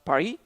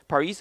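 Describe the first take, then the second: First: Paris is said with a French pronunciation. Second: Paris is said with an English pronunciation.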